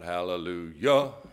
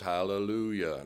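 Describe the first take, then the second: First: The final syllable is stressed more than the first. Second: The final syllable is no stronger than the first. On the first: The speaker calls it wrong. "not hallelujah" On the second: The speaker calls it right. "So it's hallelujah, ... the yah is no more than the hal"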